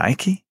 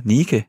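First: "Nike" in English, as NAI-kee; shoe-brand pronunciation. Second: "Nike" as NEE-keh, with long ee; Greek-goddess pronunciation. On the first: Real, not acted. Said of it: "udtalte lidt hende den anden som en sko". ("Nike" udtalt som skomærket) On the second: Shown as a demonstration. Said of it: "hvordan siger man så?". ("Nike" udtalt som gudinden, nii-ke)

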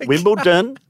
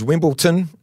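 First: Wimbledon with a clear D, no T; proper Wimbledon, no T; correct pronunciation. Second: Wimbledon with a T sound, Wimbleton; producer's Wimbleton; mispronounced Wimbledon. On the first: Shown as a demonstration. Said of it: "No T". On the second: Retold or imitated. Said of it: "guy in the earpiece goes".

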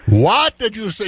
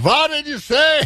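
First: A hint of an Irish accent, higher and indignant; Irish bartender taking offence, lightly voiced. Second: Put-on Irish accent pitched much higher, outraged rise; Irish bartender scandalized, climbing high on say. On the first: Angry Irish bartender questions a tourist's order, light Irish accent. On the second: Bartender repeats the question in shocked Irish accent, much higher. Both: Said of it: "in an Irish accent".

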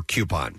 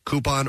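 First: Coupon said "KYOO-pon"; poll option pronunciation. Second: Coupon said "KOO-pon"; poll option pronunciation. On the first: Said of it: "Q dash pon". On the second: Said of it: "C O O dash pon". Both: Shown as a demonstration.

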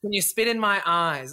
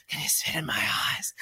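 First: Said in the usual way. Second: Breathy, imitated pant into an ear; panting whisper. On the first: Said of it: "but it's like this. It's like". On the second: Boy whispering into partner's ear while making out, panting whisper. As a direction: whisper it low, mimicking a panting lover. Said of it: "that kind of like panting voice in my ear".

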